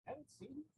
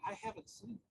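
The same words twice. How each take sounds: First: Much softer, dropped repeat of the denial; softer second denial to the sisters; quiet repeat. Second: Said in the usual way. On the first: Retold or imitated. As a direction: say it again, barely above a breath.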